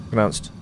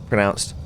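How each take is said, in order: Both takes have the same delivery.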